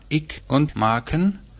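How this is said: It is said in the northern dialect form. "Nördlich sagt man"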